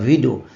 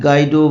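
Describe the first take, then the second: First: The name begins with a V sound. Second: The name begins with a hard G sound. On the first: The speaker calls it right. "প্রোনাউন্সিয়েশনটা এরম হয়" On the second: The speaker calls it wrong. "ওটার উচ্চারণ ওই ওই গাইডো বা এই জাতীয় কিছু হয় না"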